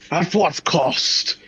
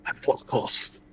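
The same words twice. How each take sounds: First: High, slow, grand delivery; dramatic declaration. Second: Whispered, slow and grave; breathy whisper. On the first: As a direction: proclaim it like an epic hero. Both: Acted. Dramatic repeated line.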